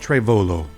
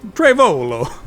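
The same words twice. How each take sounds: First: The name is said in a plain accent. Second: The name is said in an Italian accent. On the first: "I'm not sure if that's the way you say it" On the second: "it sounds fancier when you say it with like an Italian accent"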